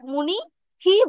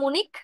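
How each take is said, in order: First: The word ends with an added hi syllable. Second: The word ends with a clipped k sound. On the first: The speaker calls it wrong. "মুনি হি বলবো না" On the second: The speaker calls it right. "কয় হসন্ত উচ্চারণ করব মুনিক"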